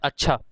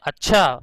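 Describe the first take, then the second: First: The word is said in a plain, neutral tone. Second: The word is said in a displeased, annoyed tone. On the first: The father is in a good mood. "Normally" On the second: The father is not in a good mood. "इस तरीके से बोलते हैं"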